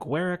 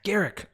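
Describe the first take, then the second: First: The name does not rhyme with Eric. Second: The name sounds like Eric beginning with G. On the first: The speaker calls it wrong. "I'm sure I'm pronouncing that wrong" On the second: The speaker calls it right. "Eric with the G"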